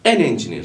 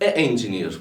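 First: An n sound links smoothly into engineer. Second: A bare vowel runs straight into engineer. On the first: The speaker calls it right. "Zorlanmadan söylüyorum" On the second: The speaker calls it wrong. "Orada bir tıkanıyorsun değil mi?"

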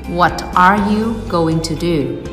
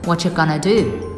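First: The phrase is said in full with every word clear. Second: The phrase is said reduced with words run together. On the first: The speaker calls it wrong. "Don't say" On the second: The speaker calls it right. "Try to say"

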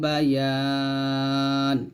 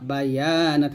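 First: The vowel before n is long; the n ends bare. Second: A short vowel is heard after the final n. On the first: The reader stops at this word. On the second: The reading continues without stopping.

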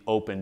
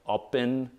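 First: The word is said like the plain English word. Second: The word is said with a foreign-sounding vowel. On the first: The speaker calls it wrong. "So I call it the open deadlift bar" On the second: The speaker calls it right. "It's supposed to be said like open or something like that"

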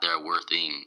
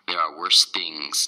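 First: The final s sounds are dropped. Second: The final s sounds are clearly pronounced. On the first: The speaker calls it wrong. "not there are worth thing" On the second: The speaker calls it right. "End that sound on worse in things. You have to end the S"

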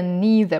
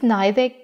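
First: Neither is said with an American pronunciation. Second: Neither is said with a British pronunciation. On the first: "потому что это более американский аналог" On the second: "Я использовала в произношении neither британскую версию"

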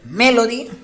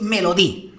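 First: The final syllable is not stressed. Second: The final syllable carries the stress. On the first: It is the name of a singer. "[name], pues sería el nombre de la cantante" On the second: Someone hit themselves hard. "las tildes son muy importantes"

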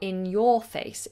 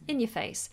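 First: The word 'your' is pronounced fully and carefully. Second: The word 'your' is reduced to a weak form. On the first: "if you are being very, very specific with your speaking" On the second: "but generally we'd say in your face"

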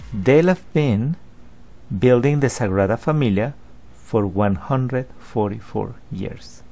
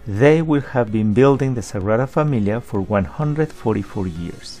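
First: Will have is reduced to a short form. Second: Will have is said in full. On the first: "Pay attention to the reduction of will have been" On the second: "Instead of saying will have been"

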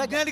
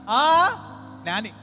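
First: It is said as one word without a gap. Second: It has a short gap after the first syllable.

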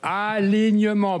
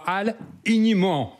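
First: The word is said as one unbroken unit. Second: The word is broken into two separate parts. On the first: The speaker calls it right. "c'est en un mot" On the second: The speaker calls it wrong. "pas alignement"

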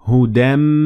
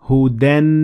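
First: The final nasal is pronounced as m. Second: The final nasal is pronounced as n. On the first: The speaker calls it right. "So we say hudam" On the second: The speaker calls it wrong. "not hudan min. We don't do that"

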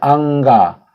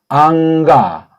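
First: The first syllable ends in an n sound. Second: The first syllable ends in an ng sound. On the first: "그냥 안가 해도 되겠죠?" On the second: "이응자 가깝게"

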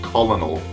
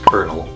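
First: The first syllable sounds like 'kol' with an L. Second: The first syllable sounds like 'ker' with an R. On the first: The speaker calls it wrong. "that's not pronounced colonel" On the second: The speaker calls it right. "that's pronounced kernel"

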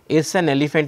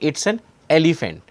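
First: The words run together across their boundaries. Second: Each word is said separately with clear boundaries. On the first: "in an utterance when you say it's an elephant is what actually you say" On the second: "in isolation we can say"

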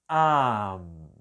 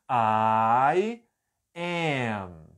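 First: The words are joined into one short syllable. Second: Both words are said fully and separately. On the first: "a versão reduzida é só am" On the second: "a pronúncia aqui é I am"

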